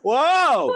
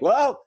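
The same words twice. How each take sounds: First: It sounds like a long, big fall. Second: It sounds like a short, small drop.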